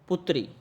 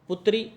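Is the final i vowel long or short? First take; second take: short; short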